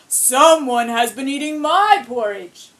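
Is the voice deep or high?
deep. It is said in a deep Papa Bear voice.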